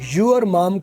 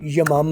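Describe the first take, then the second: First: The word 'your' is said in full. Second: The word 'your' is reduced to a short weak vowel.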